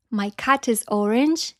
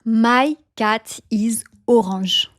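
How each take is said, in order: First: Said in the usual way. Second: Slow French accent, long open vowels; French-accented ORANGE as "o-ranzh". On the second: Shown as a demonstration. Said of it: "you pronounce it en français".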